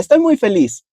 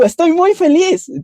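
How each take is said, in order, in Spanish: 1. Se dice con una voz normal. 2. Se dice con una energía exagerada, como de caricatura. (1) "es solo hablar" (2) "tienes que actuar de cierta forma"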